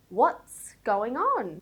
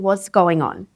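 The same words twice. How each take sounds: First: The final ts sounds are blended as one cluster. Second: The t is dropped, leaving only an s sound. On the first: The speaker calls it right. "I'm pronouncing the T S at the end as a consonant cluster" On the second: The speaker calls it wrong. "Notice how I'm not saying"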